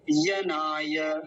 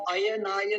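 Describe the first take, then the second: First: यनाय slowly as ya-naa-ya; correct ya start. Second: अयनाय starting with a separate "a"; mistaken initial a. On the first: Teacher correcting the word, slow drawn-out demo. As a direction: open यनाय on y and stretch it. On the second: Teacher quoting the wrong form, quicker "a-yanaaya" demo. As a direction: add an a before the y in अयनाय. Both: Shown as a demonstration. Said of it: "अयनाय नहीं बोलेंगे".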